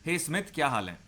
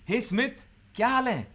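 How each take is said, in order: First: It sounds plain and neutral. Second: It sounds warm, rising, rapport-seeking.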